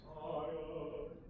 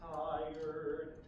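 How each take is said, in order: First: The word is said without an r sound. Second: The word is said with an r sound. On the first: This is the dialect used in the piece. The speaker calls it right. "we sing" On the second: This is the standard pronunciation. The speaker calls it wrong. "we don't sing"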